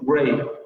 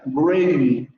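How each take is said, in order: First: The diphthong glides only partway toward i. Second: The diphthong glides up to a fully closed i. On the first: The speaker calls it right. "Dicen gray" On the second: The speaker calls it wrong. "No dicen gray"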